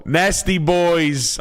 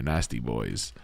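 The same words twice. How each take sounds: First: Much higher, slow hammed-up New Jersey guy drawing out "Nasty Boys"; filthy Jersey boy voice. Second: Said in the usual way. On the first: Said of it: "in your best filthy P O S Jersey boy voice". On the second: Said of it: "I'm just kidding".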